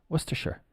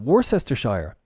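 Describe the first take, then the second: First: It is shortened, ending like the word sure. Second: Every letter is sounded as it is spelled. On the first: The speaker calls it right. "Worcester. And then if we add the Shire on, it becomes Worcestershire. Sure" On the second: The speaker calls it wrong. "No, absolutely not"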